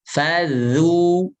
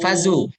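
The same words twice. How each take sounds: First: The middle consonant has the tongue tip at the teeth. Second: The middle consonant is a plain z sound. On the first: The speaker calls it right. "Dari ujung lidah, ujung lidah tempelkan ke uh, ujung sari atas" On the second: The speaker calls it wrong. "Bukan fazu"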